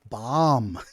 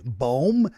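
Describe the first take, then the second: First: The vowel is a short 'o' sound. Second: The vowel is an 'oo' sound, like tomb. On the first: The speaker calls it right. "no, bomb" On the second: The speaker calls it wrong. "B O M B, boom"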